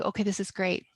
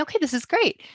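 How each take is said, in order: First: Said in the usual way. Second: Hushed, breathless private thought; inner whisper. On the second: Retold or imitated. Thinking to herself in the lawyer's office, whispered. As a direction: whisper it to yourself, hopeful.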